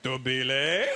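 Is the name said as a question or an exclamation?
question. It is said as a rising question.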